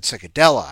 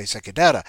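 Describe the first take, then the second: First: Cicadella said with an L, as the slip was; the host repeats his slip Cicadella to the listeners, loud and clear; wrong name. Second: Cicadetta said with a T, the correct version; the host corrects himself to the listeners, Cicadetta, quick and firm; right name. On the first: Host quoting his own mispronunciation Cicadella with an L sound. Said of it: "I said Cicadella". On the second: Host fixing the storyteller's name as Cicadetta with a T. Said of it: "I meant to say Cicadetta". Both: Shown as a demonstration.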